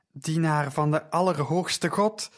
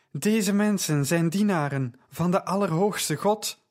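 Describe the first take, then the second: First: Mild shout. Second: Louder, higher, bellowing it after the men; a heavy voice booming across the market. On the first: Slave girl shouts at Paul, mild raised call. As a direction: call it after him, only partly raised. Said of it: "schreeuwde ze". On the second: Slave girl bellows after Paul and Silas, loud bellow. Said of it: "bulkte ze". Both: A narrator's reading.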